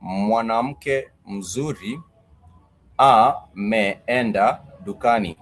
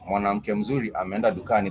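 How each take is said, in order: First: Each word drawn out slowly for learners; slow, careful demo of the sentence; slow model sentence. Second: Said in the usual way. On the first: Shown as a demonstration. Teacher models the Swahili sentence slowly for students. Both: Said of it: "you might say".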